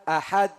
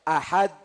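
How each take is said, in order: No difference in how they are said.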